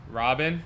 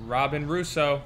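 First: Rising, unsure roll call; asking if she's there; questioning call. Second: Flat, insistent full name; firm repeat. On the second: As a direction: call her name again firmly. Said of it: "Has anyone seen Robin?". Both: Acted.

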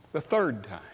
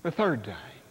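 Both takes have the same delivery.

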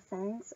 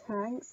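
First: Said in the usual way. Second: "tanks", plain T replacing the TH; "tanks" opening on T, not TH; TANKS for thanks. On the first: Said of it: "tanks instead of thanks". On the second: Shown as a demonstration. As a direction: say "tanks" with a hard T. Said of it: "instead of thanks".

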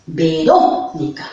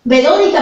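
First: Verónica slowed, leaning on the RÓ; stress on RÓ. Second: Said in the usual way. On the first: Shown as a demonstration. Teacher showing first graders the tilde in Verónica, stressed RÓ. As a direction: stretch out the accented RÓ in Verónica. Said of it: "Cómo tiene su tilde".

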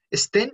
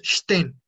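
First: STEN said "esten", with a plain hissed S; S simple, a la española. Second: STEN said "shten", opening on SH; S como sh. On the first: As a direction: put an E before a plain S in "sten". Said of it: "cuando está la S antes de la T". ("sten" como "esten", con S normal) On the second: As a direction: start "sten" with a strong SH, no E before it. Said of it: "S antes de la T suena sh fuerte". ("sten" como "shten", con sh fuerte) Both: Shown as a demonstration.

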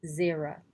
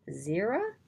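First: Said in the usual way. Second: Questioning. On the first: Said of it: "Chapter fourteen". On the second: Acted. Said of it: "asked Anna".

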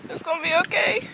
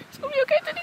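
First: Said in the usual way. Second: Much higher, sing-song reassurance; high cooing. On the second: Real, not acted. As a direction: coo it up high like soothing a pet. Cooing to Teddy.

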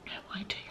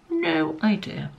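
First: Whispered aside. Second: Quiet, slowed "No idea" in low voice; soft, slow repeat. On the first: Reading a baffling ingredient list to viewers, whispered aside. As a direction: whisper "No idea" with no voice at all. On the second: Shrugging off a strange ingredient to viewers, soft and slow. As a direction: drop "No idea" softly and drawn out. Repeating her baffled aside. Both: Real, not acted.

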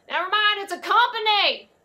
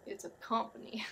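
First: High, loud holler to someone off; loud called-out correction, pitched up; yelling across. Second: Said in the usual way. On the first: Acted. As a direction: shout the correction across the lot. Yells correction to Bobby Ray.

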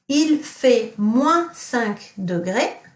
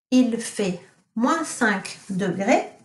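First: Il fait moins cinq degrés said slowly; teacher quizzing class with il fait moins cinq degrés; slow model sentence. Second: Il fait moins cinq degrés repeated slowly; teacher repeating Il fait moins cinq degrés for pupils; slow model sentence. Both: Shown as a demonstration. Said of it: "what does it mean if I say".

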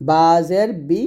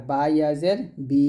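First: Final "বি" short and quick; no stretch on the ee of "বি"; recite, stopping promptly on "বি"; short vowel. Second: Final "বি" held long; recite, sustaining "বি" for one alif; drawn-out vowel. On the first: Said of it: "হরকতে টান দেয় নাই". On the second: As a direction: draw out the ee of "বি". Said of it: "মাদে হরফ আমরা টান দিছি". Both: Shown as a demonstration.

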